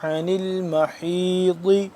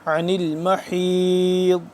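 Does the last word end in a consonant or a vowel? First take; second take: vowel; consonant. First: The last word ends with a short i vowel. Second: The last word ends on a bare consonant. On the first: The reading continues without a stop. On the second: The reader stops at this word.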